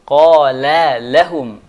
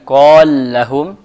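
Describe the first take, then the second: First: Both l sounds are pronounced clearly and separately. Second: The two l sounds merge into one doubled l. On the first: The speaker calls it right. "tapi qala lahum. Harus dibaca jelas keduanya" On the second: The speaker calls it wrong. "Maka kita dia mengatakan qal lahum"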